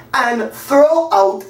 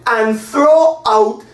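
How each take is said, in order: Both takes have the same delivery.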